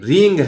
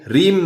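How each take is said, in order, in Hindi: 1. यह शब्द नासिका वाली ng ध्वनि से खत्म होता है। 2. यह शब्द m ध्वनि से खत्म होता है। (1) "ये रींग है" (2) "ये रीम नहीं है"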